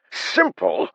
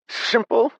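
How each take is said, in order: First: Loud, falling exasperated shout. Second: Shrill, high disbelieving scream. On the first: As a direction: hurl it back, exasperated. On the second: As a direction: shriek the word in disbelief. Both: A narrator's reading. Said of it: "Haber practically screamed".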